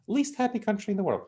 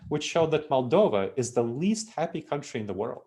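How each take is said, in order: First: "Least happy country in the world" said much higher, with the weight on "Least"; emphatic repeat. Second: Said in the usual way. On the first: Real, not acted. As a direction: repeat it in disbelief, hitting "Least" high.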